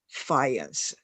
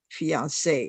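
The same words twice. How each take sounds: First: The final E is silent, not sounded. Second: The final E is sounded, like 'ay'. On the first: The speaker calls it wrong. "instead of fiance" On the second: The speaker calls it right. "there should be uh, an accent on it. So you would pronounce it fiance"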